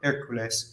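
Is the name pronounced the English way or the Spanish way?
Spanish. The name is pronounced with Spanish sounds. "In Spanish"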